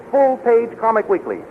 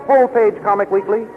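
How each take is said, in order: Both takes have the same delivery.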